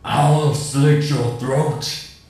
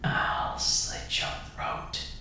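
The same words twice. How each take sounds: First: It is screamed in a deep, guttural voice. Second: It is whispered aggressively.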